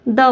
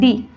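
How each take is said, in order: First: The word ends in a short 'uh' vowel. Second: The word ends in a long 'ee' vowel. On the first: The next word starts with a consonant. "इसको द बोला जाता है द" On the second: The next word starts with a vowel. "तो दी बोला जाता है दी बोला जाता है दी"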